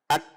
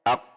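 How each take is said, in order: First: The final k is light and made further forward. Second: The final q is heavy and made further back. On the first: "Kaf sukun adalah ak" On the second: "Kalau qaf ak"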